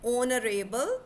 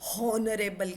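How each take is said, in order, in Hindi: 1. यह शब्द सीधे एक स्वर ध्वनि से शुरू होता है। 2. यह शब्द एक बोली जाने वाली 'h' ध्वनि से शुरू होता है। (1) "ਨੋ" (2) "ਬਹੁਤ ਸਾਰੇ ਸਟੂਡੈਂਟਸ ਹੌਨਰੇਬਲ ਕਹਿਣ ਲੱਗ ਜਾਂਦੇ"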